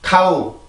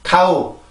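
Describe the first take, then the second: Both takes have the same delivery.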